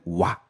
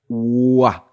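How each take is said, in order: First: The two vowels are said fast as one glide. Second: The two vowels are said slowly, one after another.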